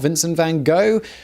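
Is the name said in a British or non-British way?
non-British. The name is said a non-British way. The speaker calls it wrong.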